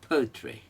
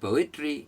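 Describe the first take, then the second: First: The stress falls on the first syllable. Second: The stress falls off the first syllable. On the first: The speaker calls it right. "Poetry पहला उड़ेगा" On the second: The speaker calls it wrong. "सब गलत है"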